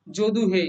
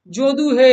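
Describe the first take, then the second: First: Said in the usual way. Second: Louder call with হে held long; হে held like a call across a field; drawn-out call. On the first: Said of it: "Padma নদীর মাঝি উপন্যাসে রয়েছে". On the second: Shown as a demonstration. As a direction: call out Jadu হে, stretching the হে. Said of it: "টেনে টেনে উচ্চারণ করছি".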